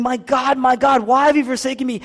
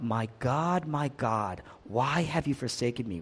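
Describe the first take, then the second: First: Loud, high preacher's cry of anguish; impassioned crying out. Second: Low, soft lament, held back; subdued retold cry. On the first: Retold or imitated. Preacher voices forsaken Jesus calling to his Father, crying out. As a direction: cry it out at raised pitch and full force. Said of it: "And he's crying out". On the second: Preacher quotes Jesus forsaken on the cross, subdued cry. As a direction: quote a cry of abandonment quietly, pitched down. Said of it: "But Jesus cries out".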